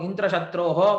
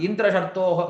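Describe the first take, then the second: Both takes have the same delivery.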